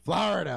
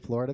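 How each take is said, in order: First: The word is said in a Florida accent. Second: The word is said in a standard accent. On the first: "They say Florida" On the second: "They don't say Florida"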